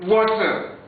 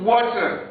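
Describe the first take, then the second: No difference in how they are said.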